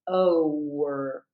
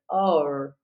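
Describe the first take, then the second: First: The vowel glides through a w sound before R. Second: The vowel is clipped, going straight into R. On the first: The speaker calls it right. "instead of over" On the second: The speaker calls it wrong. "their vowel sounds clipped. It doesn't sound clear. It sounds like or"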